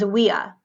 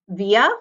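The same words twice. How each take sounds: First: The word begins with a W sound. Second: The word begins with a V sound.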